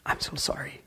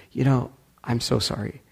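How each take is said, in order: First: Soft, whispered apology. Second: Said in the usual way. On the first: Retold or imitated. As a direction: breathe an ashamed sorry. Wife apologizes for the assault.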